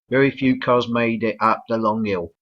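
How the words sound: It is said in a London accent. "in uh, London English the L isn't even pronounced"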